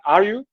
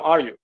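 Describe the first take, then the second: First: The voice rises at the end. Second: The voice falls at the end.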